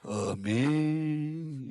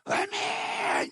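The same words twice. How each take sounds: First: The pitch falls, flat and subdued. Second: The pitch rises, lively and fervent.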